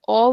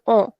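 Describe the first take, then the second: First: Said in the usual way. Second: O nasalised through the nose; nasal o, as under a tilde; nasal vowel. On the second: Shown as a demonstration. Teacher recaps the accent, nasal o. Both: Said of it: "this accent gives a nasal sound".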